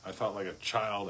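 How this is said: The word child carries the main stress. Being a child is portrayed as a bad thing. The speaker calls it wrong. "The emphasis going from child, which makes it sound bad"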